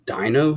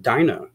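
First: DINO with a rising question tune; questioning echo. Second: Said in the usual way. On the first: Acted. Yvonne queries the pet's name, DINO rising in question. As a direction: echo DINO as a question, pitch climbing to the end.

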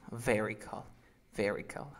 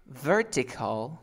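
First: "Vertical" lower, as "veri-cal"; t dropped by rule. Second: "Vertical" slow, with a clear t; written-form pronunciation. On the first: Teacher confirms the student's answer, t dropped. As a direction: say "Vertical" low, without its t. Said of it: "luego tú repites usando la regla". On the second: Teacher gives the word for conversion, slow full t. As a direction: stretch "Vertical", sounding the t. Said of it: "Yo voy a pronunciar". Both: Shown as a demonstration.

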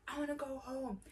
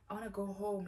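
First: Mock shout. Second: Said in the usual way. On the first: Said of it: "She's shouting". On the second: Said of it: "she's not even saying it like that".

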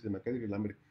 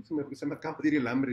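First: Said in the usual way. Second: Louder, fast, flustered; fast, loud, rattled; flustered rush. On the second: Acted. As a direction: blurt it out in a hurry. Brother says twice, first hurried.

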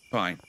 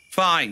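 First: Said in the usual way. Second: Louder, higher pouting fine; sulky loud fine. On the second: Acted. Player denied the ladder, sulky outburst. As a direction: snap it like a sulking child.

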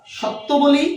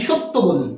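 First: সত্য with open "aw", higher pitch; mispronunciation shown. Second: সত্য with closed "o": "shot-to"; correct pronunciation. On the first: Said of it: "তাহলে আমরা ভুল বলি". (সত্য উঁচু সুরে, প্রথম স্বর খোলা অ) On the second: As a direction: say সত্য with a rounded first vowel, "shot-to". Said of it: "আমরা কি বলি?". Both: Shown as a demonstration.

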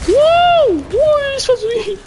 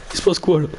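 First: High squealing wow; shrill surprise. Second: Said in the usual way. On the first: Real, not acted. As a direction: squeal in sudden shock. High far shout at game. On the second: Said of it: "repeat of the question".

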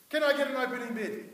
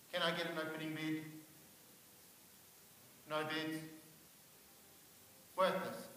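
First: Brisk loud auctioneer opening; auctioneer call. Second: Quiet, lower deflated auctioneer call; dejected. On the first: Opening a mock baby auction. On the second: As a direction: ask for a bid expecting none. Auctioning himself, no bids. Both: Acted.

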